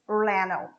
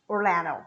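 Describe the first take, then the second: First: The d sound is dropped. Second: The same.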